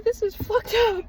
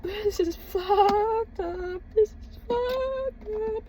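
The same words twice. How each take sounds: First: Said in the usual way. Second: High and very slow, drawn out; slow, stretched disbelief. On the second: Real, not acted. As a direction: let each word hang in stunned disbelief.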